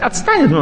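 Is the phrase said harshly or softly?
harshly. It is said sharply and harshly, with strong emotion. The listener feels cut to the heart. The speaker calls it wrong.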